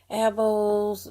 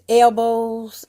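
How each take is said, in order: First: The L sound is weak or hardly heard. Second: The L sound is clearly pronounced. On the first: This is how it is said back home. "I grew up saying elbows" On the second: This is the attempt at the correct way. "Maybe it's elbows, L L elbows"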